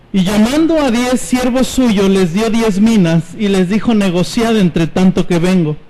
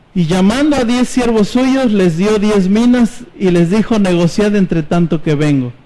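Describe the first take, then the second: Both takes have the same delivery.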